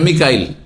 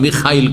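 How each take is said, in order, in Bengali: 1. মাঝের ব্যঞ্জনটি একটি সাধারণ k ধ্বনি। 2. মাঝের ব্যঞ্জনটি একটি আসপিরেটেড kh ধ্বনি।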